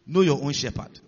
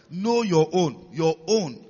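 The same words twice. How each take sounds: First: Said in the usual way. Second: "Know your own" repeated slowly and forcefully, "Your own" echoed; slow emphatic stress on KNOW. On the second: Shown as a demonstration. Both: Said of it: "I've emphasized that a lot".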